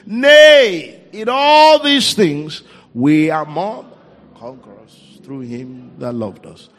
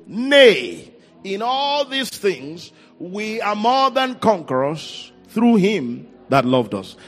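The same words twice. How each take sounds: First: It is read louder. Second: It is read at normal volume.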